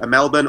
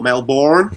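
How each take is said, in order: First: The name is said with an Australian pronunciation. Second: The name is said with an American pronunciation.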